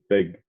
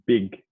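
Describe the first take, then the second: First: The vowel is less sharp, in a New Zealand accent. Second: The vowel is sharp, in an Australian accent. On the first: "when I was from New Zealand, I would say big" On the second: "Australians pronounce the letter I much more sharply. So I would say big"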